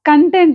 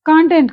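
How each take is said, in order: First: The stress is on the second syllable. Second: The stress is on the first syllable. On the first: Someone was happy and satisfied. The speaker calls it right. "He was కంటెంట్ అనాలి" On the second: It refers to subject matter or information. The speaker calls it wrong. "కాంటెంట్ కాదు"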